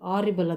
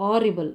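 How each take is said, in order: First: The word begins with a vowel sound. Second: The same.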